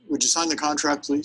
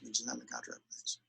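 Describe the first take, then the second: First: It is said confidently, with a smile. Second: It is said weakly, without a smile.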